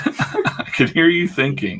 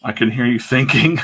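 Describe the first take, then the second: First: Says it again through a laugh. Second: Said in the usual way. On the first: Shown as a demonstration. Teasing a friend, laughing. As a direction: chuckle the line out, a touch higher.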